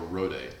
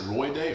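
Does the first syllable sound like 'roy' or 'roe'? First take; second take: roe; roy. First: The first syllable sounds like 'roe'. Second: The first syllable sounds like 'roy'. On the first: The speaker calls it right. "or Roe Day? ... I'm right" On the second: The speaker calls it wrong. "Is it Roy Day"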